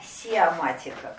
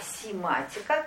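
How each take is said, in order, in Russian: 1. После первого слога 'si' идёт гласная 'o'. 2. Между 'si' и 'ma' гласной нет. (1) "Не сиоматика, как мы с вами говорим" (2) "а симатика, как синтез матик"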